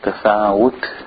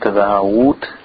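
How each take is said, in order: Both takes have the same delivery.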